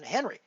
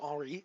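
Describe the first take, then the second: First: The name is said with an English pronunciation. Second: The name is said with a French pronunciation. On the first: The speaker calls it wrong. "rather than Henry" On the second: The speaker calls it right. "I should try to pronounce it Henri"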